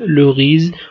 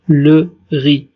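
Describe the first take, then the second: First: A final z sound is pronounced. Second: The word ends without a z sound. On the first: The speaker calls it wrong. "لا نقول le riz" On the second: The speaker calls it right. "ولكن نقول le riz"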